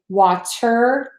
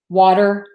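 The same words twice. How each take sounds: First: The middle consonant is a full, crisp T. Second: The middle consonant is a quick D-like flap. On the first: The speaker calls it wrong. "we do not say" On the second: The speaker calls it right. "we would tend to say a D, which is the flat T"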